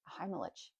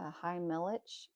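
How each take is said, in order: First: The name is said very quickly. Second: The name is said slowly and carefully. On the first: "If you say it really fast" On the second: "even if I say it slow"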